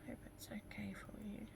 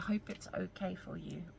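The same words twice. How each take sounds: First: It is said very quietly, almost mumbled. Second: It is said louder and more clearly. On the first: The speaker calls it wrong. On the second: The speaker calls it right.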